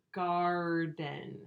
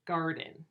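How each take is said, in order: First: Garden drawn out slowly on a level tone; sounds stretched out. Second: Said in the usual way. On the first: Shown as a demonstration. Teacher stretching the sounds out for pupils, slowly. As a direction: stretch both halves of garden, "gaaar-den". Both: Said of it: "Stretch the sounds out for me".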